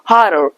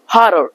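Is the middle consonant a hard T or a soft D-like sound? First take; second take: soft D; soft D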